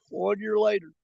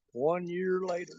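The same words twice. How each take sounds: First: Said in the usual way. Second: Slow, soft, drawn-out setup; slow dramatic beat. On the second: Real, not acted. Telling viewers the CatCon story, slow and hushed. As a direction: let it hang before the payoff.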